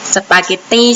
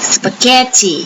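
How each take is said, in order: First: The word is said in a Thai style. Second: The word is said in an English style. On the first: The speaker calls it wrong. "บางคนอ่านว่าอะไรเอ่ยสปาเกตตี้ใช่ไหมคะภาษาพูดของคนไทยนะคะ" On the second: The speaker calls it right. "จริงๆก็ต้องพูดว่า"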